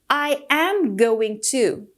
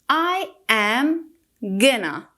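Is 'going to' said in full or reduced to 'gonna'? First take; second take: full; reduced. First: Going to is said fully as separate words. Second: Going to is reduced and blended into gonna.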